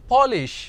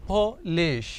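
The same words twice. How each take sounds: First: Said in the usual way. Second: Split into syllables. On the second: Shown as a demonstration. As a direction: lay out polish in its two syllables. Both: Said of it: "तो ये दो syllables का word है".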